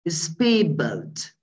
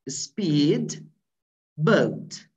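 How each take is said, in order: First: The d of speed turns into b. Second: The d of speed is clearly pronounced. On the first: "turning this dot to be ba" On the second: "If you just pronounce this phrase quite differently and quite distinctly"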